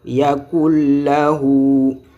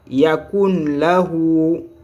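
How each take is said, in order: First: The n sound merges into the l. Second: The n sound is kept before lahu. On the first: The speaker calls it right. "il faut dire yakul lahu" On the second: The speaker calls it wrong. "c'était yakun"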